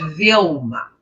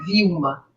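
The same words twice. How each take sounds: First: The L is a clear, fully pronounced L. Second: The L sounds like a U vowel. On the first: This is how English speakers say it. "em inglês ele me chama de Vilma" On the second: This is how Portuguese speakers say it. "no português o nosso L tem som de U"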